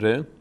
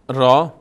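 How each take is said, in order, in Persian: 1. نام حرف با مصوت 'eh' تموم میشه. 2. نام حرف با مصوت 'ah' تموم میشه. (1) "ما در فارسی بهش میگیم ر" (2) "در عربی را تلفظ میشه"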